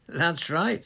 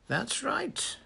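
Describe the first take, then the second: First: Loud, high, cheery confirmation; breezy agreement with a lifted, stronger voice; cheerful. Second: Lightly pleasant, high-pitched confirmation at normal volume; easy, agreeable lilt, unforced. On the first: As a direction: own up to it cheerfully. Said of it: "said Dumbledore cheerfully". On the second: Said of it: "said Dumbledore pleasantly". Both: A narrator's reading.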